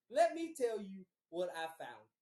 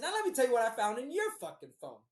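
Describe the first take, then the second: First: Measured, mildly heated repeat; telling her off. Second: Fast, loud, raised-pitch retort; telling her off. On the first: Man repeating his threat to girlfriend, controlled telling-off. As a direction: press the accusation more deliberately. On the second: Man confronting girlfriend about her phone, heated. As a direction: round on them in a retold quarrel. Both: Retold or imitated. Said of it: "I got on her ass".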